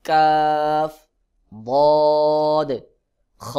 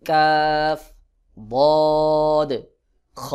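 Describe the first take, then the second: No difference in how they are said.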